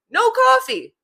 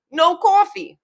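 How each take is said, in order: First: High-pitched, emphatic tagline; emphatic repeat. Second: High, emphatic New York accent. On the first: Capping the saying for listeners, high emphatic repeat. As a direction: punch it out high as a punchline. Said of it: "I'm gonna say it just normally how I would say it". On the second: Capping the saying, emphatic New York accent. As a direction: cap it off in broad New Yorkese. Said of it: "Now with the accent". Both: Shown as a demonstration.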